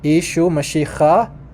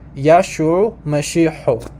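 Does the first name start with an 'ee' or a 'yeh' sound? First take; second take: ee; yeh. First: The first name starts with an 'ee' sound. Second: The first name starts with a 'yeh' sound. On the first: This is the Eastern dialect form. "in Eastern, it's pronounced Ishu Mashiach" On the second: This is the Western dialect form.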